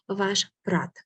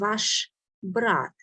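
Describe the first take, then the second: First: Spoken fast, with the b sound devoiced. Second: Spoken slowly, with a clearly voiced b sound. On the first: "When I say it very fast, the next letter becomes dull also. ... So not very clear b you might hear" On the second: "So you hear uh, the bright sounds clearly"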